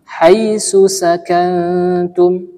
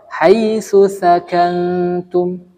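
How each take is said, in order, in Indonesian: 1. Kedua konsonan kunci diucapkan dengan bunyi s. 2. Kedua konsonan kunci diucapkan dengan bunyi th. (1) "Jangan sampai kita baca huruf sa dengan huruf sin"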